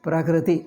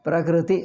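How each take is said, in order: The two takes are said the same way.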